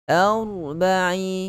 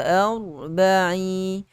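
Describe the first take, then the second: No difference in how they are said.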